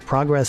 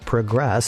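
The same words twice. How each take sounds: First: It is said as the noun form. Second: It is said as the verb form. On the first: It names a thing. "Progress is a thing" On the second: It names an action. "Progress is a thing you do"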